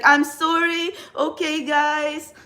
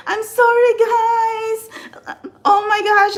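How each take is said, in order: First: Slow, drawn-out mock apology; her old awkward on-camera self. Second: Much higher and louder, a flustered apologetic gush; her old awkward on-camera self. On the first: Tarot reader mimicking her clumsy early camera talk, slow and awkward. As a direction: imitate a hesitant beginner fumbling on camera. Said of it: "the intonation was so, it's so bad". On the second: Retold or imitated. Tarot reader imitating her nervous early livestream apologies, high flustered gush. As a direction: mimic a nervous beginner apologising to viewers. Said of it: "The intonation was bad".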